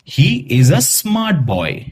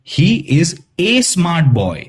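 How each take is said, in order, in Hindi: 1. आर्टिकल 'uh' की तरह छोटा बोला जाता है। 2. आर्टिकल 'ay' की तरह पूरा बोला जाता है। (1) "हम कैसे प्रोनाउंस करेंगे?" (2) "हम इसे ऐसे प्रोनाउंस नहीं करेंगे"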